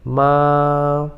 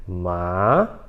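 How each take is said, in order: First: "ma" held long on a single pitch; stretched, unmoving "ma"; first tone, level. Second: "ma" starting low and rising like a question; questioning upswing on "ma"; second tone, rising. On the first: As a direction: keep "ma" on one tone only. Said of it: "um tom só". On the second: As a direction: ask "ma" with an upward slide. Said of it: "como se você tivesse fazendo uma pergunta". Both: Shown as a demonstration.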